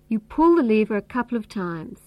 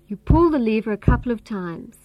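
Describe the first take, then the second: First: The word pull carries the main stress. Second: The same.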